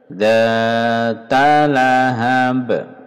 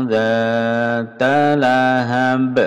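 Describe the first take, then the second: The two takes are said the same way.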